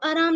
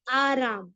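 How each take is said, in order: First: The first vowel is short and clipped. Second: The first vowel is drawn out long. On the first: The speaker calls it wrong. "तो आराम नहीं" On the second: The speaker calls it right. "अलिफ की मिकदार को क्या किया गया है, खींचा गया है"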